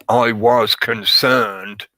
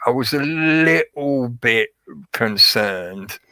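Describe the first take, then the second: First: "I was concerned" said slowly and firmly, each word weighted; "I was concerned" slow and definite; firm statement. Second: Hedging. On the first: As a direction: state "I was concerned" deliberately, without hedging. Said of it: "you're giving more inflection". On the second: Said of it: "that dilutes what you're trying to say". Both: Shown as a demonstration.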